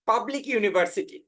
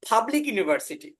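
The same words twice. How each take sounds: First: The first p sound is plain, without a breath. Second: The first p sound has a puff of breath. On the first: "আমরা পড়েছি" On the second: "প এবং ফ এর মাঝামাঝি"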